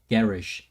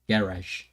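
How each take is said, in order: First: It is said with an Australian pronunciation. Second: The same.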